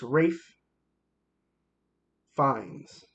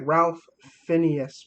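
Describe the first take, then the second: First: The first name rhymes with safe. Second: The name is said the way it is spelled. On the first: The speaker calls it right. "It's Rafe Fiennes" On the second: The speaker calls it wrong. "It looks like Ralph Phineas, but it's not"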